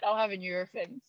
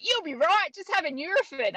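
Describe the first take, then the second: First: Said in the usual way. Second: Put-on light Australian accent, high and breezy. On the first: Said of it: "I was like". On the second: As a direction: imitate the Australian mate brushing it off. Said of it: "he was an Australian".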